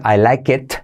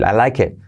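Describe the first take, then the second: First: The final T is clearly pronounced. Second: The final T is very subtle. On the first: "Puedes decir I like it" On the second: "esa T es muy sutil"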